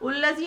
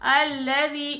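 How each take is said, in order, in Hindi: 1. पहला स्वर u है। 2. पहला स्वर a है। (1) "उल्लज़ी नहीं" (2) "अल का हमेशा हमजा जबर वाला होता है"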